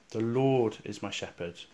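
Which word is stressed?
Lord. The stress is on the word Lord. It is the Lord and no one else who is the shepherd. "with the emphasis on the words, the Lord"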